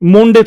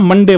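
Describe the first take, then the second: First: The first vowel is a rounded 'o' sound. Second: The first vowel is a short 'uh' sound. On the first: The speaker calls it wrong. "मोंडे थोड़ी होता है" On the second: The speaker calls it right. "मंडे बोलते हैं"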